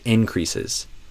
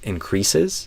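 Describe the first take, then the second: First: The stress is on the first syllable. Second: The stress is on the second syllable. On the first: It is used as a noun. The speaker calls it right. "I would say increases when it's a noun" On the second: It is used as a verb. The speaker calls it wrong. "because to me that's the verb version"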